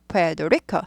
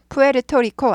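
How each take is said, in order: First: It is pronounced the English way, with a flapped middle. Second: It is pronounced the Korean way, Pu-e-reu-to-ri-ko. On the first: The speaker calls it right. "영어로는 푸에도리코" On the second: The speaker calls it wrong. "푸에르토리코 아니고"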